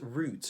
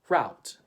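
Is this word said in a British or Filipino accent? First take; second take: British; Filipino. First: It is said with a British English accent. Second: It is said with a Filipino English accent. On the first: "But in the U K, they would say" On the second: "In the Philippines, we would say route"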